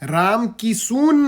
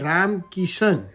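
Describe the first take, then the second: First: The second name ends with an s and 'oon' sound. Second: The second name ends with an sh and 'an' sound. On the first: The speaker calls it wrong. "Ram કિસુન નહીં ભઈલા" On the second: The speaker calls it right. "એને કહેવાય રામ કિશન"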